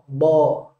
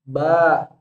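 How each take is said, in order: First: Heavy, with the jaw raised and rounded. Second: Light, with the jaw and tongue kept low. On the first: "angkat rahangnya bo ... langsunglah berubah huruf ba yang tipis jadi tebal" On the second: "keluarlah bunyi-bunyi huruf tipis"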